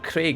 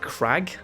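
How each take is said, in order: First: The vowel sounds like the 'ay' in 'vague'. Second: The vowel sounds like the short 'a' in 'bag'. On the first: The speaker calls it wrong. "it's not Craig" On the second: The speaker calls it right. "They pronounce it like Crag"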